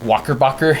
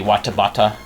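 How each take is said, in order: First: The middle consonants are pronounced as K sounds. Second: The middle consonants are pronounced as T sounds. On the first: The speaker is from a deep rural area. "Jamaicans uh, frequently replace T's with K's" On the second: The speaker is from another area. "in other places it would be"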